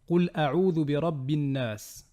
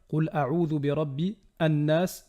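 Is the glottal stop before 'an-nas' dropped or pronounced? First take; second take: dropped; pronounced. First: The words run together without a glottal stop. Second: The glottal stop before the article is pronounced. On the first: The speaker calls it right. "mais plutôt" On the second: The speaker calls it wrong. "On ne va pas dire"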